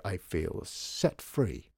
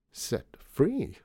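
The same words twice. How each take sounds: First: Slow, drawn-out relish; lingering on "set free", falling at the end; savoured declaration. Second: "Set free?" pitched high on FREE; higher echo of "Set free?", FREE swooping up then down; echoed with emphasis. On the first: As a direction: stretch out SET FREE as a statement. Declares his relief, savouring it. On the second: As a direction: lift "free" high, as if querying it. The same words echoed back. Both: A narrator's reading.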